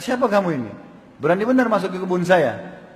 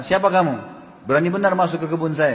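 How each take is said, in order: First: Angry challenge. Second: A touch of angry challenge, retelling the garden owner; mildly indignant, demanding who dares intrude; retold anger. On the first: Retold or imitated. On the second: Garden owner confronting an intruder, mild retold anger. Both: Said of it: "Lalu dia marah".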